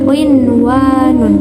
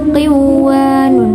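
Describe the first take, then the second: First: The n sound before the w is pronounced. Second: The n sound before the w is dropped. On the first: The speaker calls it right. "tapi qinwanun" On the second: The speaker calls it wrong. "Bukan qiwanun"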